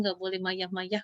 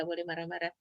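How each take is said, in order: First: Slow and a little softer, "mayah-mayah" said with y where r belongs; like a two-year-old saying "mayah-mayah"; toddler mispronunciation. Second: Said in the usual way. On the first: Retold or imitated. Toddler telling her mother not to be angry, in baby talk.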